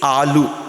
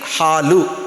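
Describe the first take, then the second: First: The word starts directly with a vowel. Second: The word starts with an h sound. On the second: "we say for milk, halu. Ha is there"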